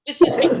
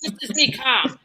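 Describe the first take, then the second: First: Louder and higher, clearly not calm; strung-out calm. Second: Said in the usual way. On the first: Shown as a demonstration. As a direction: insist on being calm while wound up. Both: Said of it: "can you tell I'm a little strung out".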